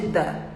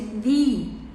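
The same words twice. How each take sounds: First: The word has a short 'uh' vowel. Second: The word has a long 'ee' vowel. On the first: "o the não tem som de the" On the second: "tem som de the"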